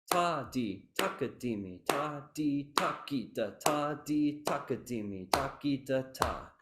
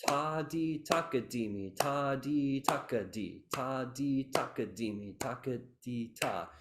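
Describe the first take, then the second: First: Chanted syllables with "takita" as three even, drawn-out beats; triplet brought out. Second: Chanted syllables with "taka di" squashed into short-short-long; crushed triplet. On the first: Teacher leading the class rhythm, triplet brought out evenly. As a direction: give "takita" its full even triplet, with a slight limp. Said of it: "That's the triplet really shining". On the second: Teacher demonstrating the mistake, triplet crushed into taka di. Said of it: "If I crush it". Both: Shown as a demonstration.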